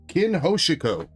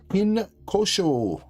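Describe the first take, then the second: First: The second part of the name has three syllables. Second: The second part of the name has two syllables. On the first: The speaker calls it right. "There we go" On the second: The speaker calls it wrong. "I don't think I said that right"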